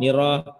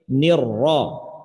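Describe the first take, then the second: First: The r is short and single. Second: The r is held and doubled. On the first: The speaker calls it wrong. "jangan sampai nira" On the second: The speaker calls it right. "ra di sini bertasydid"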